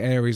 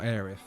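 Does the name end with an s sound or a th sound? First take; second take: s sound; th sound. First: The name ends with an s sound. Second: The name ends with a th sound. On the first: "I say Aries" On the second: "not Aerith"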